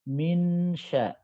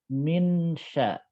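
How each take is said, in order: The two takes are said the same way.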